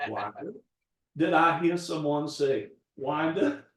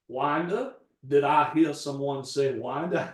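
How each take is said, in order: First: Mildly imitated old Georgia accent; understated Southern Georgia gentleman's accent; Foghorn Leghorn Georgia drawl. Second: Put-on a light Georgia blue-blood accent, slightly louder; hint of a Southern Georgia gentleman's accent, booming a touch; Foghorn Leghorn Georgia drawl. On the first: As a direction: repeat it in a light Georgia blue-blood accent. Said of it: "it's just like Foghorn Leghorn". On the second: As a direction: lightly imitate a grand old Georgia accent. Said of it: "He sounded like Foghorn Leghorn".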